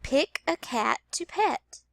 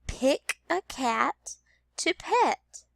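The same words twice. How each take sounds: First: Slowed, clear repeat of Pick a cat to pet. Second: Slow, every word clear, Pick a cat to pet; slow teacher read-aloud; slow modeled sentence. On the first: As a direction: repeat it slowly. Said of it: "Let me repeat that sentence". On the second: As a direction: read it slowly for children. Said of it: "The first sentence is". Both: Shown as a demonstration.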